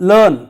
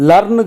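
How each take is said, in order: The two takes are said the same way.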